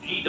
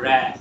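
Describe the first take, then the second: First: "read" said as "reed", long ee vowel; "read" in present-tense sound, "reed"; wrong pronunciation demo. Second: "read" said as "red", short e vowel; "read" as past participle, spoken "red"; correct past-tense pronunciation. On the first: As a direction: say "read" to rhyme with "need", as the wrong form. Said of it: "read হবে না". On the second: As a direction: say "read" to rhyme with "bed". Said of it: "উচ্চারণটা হবে read". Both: Shown as a demonstration.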